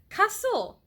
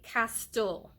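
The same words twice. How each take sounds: First: The t sound is left silent. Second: The t sound is clearly pronounced. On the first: The speaker calls it right. "the silent T rule" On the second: The speaker calls it wrong. "It ain't castle"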